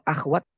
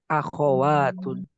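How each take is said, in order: First: The kh sound has no vowel after it. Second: The kh sound is followed by an a vowel. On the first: The speaker calls it wrong. "kalau akhwat salah ya" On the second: The speaker calls it right. "khoknya difatahkan"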